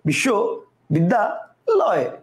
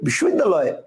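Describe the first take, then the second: First: The word is broken into three separate parts. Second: The word is said in one unbroken part. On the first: "কয়টা হলো তিনটা" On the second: "একবারেই বলবে ... কয়টা হলো একটা"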